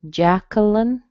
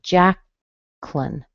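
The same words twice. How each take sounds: First: The middle syllable has no W sound: kuh. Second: The middle vowel is dropped, leaving two syllables. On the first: "without the little W sound" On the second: "it would become a two-syllable word"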